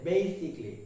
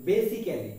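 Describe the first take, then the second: First: Basically in three syllables, "BAY-sik-lee"; correct pronunciation. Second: Basically in four syllables, "BE-si-ke-lee"; common mispronunciation. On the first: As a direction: drop the AL in basically. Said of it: "proper উচ্চারণটা হবে". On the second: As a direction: sound every vowel in basically. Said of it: "আমরা এর উচ্চারণ করে থাকি". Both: Shown as a demonstration.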